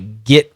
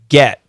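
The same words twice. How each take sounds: First: The vowel sounds like the short i. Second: The vowel sounds like the short e. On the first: "his pronunciation here is like an I" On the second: "Here it goes back to an E"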